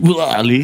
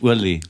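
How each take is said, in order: First: The name sounds like a retching noise. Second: The name sounds like an ordinary spoken name. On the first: The speaker calls it wrong. "Mein Name klingt auch immer so ein bisschen wie Kotzen" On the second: The speaker calls it right. "wenn man ihn korrekt ausspricht"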